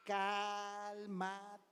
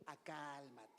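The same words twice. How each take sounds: First: Said in the usual way. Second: Low, soft self-soothing; hushed inner calming; calm yourself. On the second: Shown as a demonstration. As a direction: say it quietly to yourself, settling down. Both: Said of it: "me ha ayudado mucho a ¿qué?".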